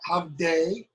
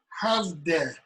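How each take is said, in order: First: The final vowel is a long 'ay' sound. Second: The final vowel is a short 'eh' sound. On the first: The speaker calls it wrong. "not havde" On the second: The speaker calls it right. "final E's are essentially eh, not a"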